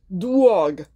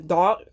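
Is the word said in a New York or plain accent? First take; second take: New York; plain. First: It is said in a New York accent. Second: It is said in a plain, neutral accent.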